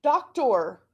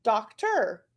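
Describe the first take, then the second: First: "Doctor" as DOK-TOR, with a full "or"; "Doctor" sounded out with OR in the second syllable; trying "or". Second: "doctor" as DOK-ter; second syllable of "doctor" reduced to "ter"; switched to "er". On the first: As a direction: say "Doctor" ending like "tore". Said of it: "then try it". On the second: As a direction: say "doctor" with an "er" ending. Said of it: "switch it and do the E R". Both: Shown as a demonstration.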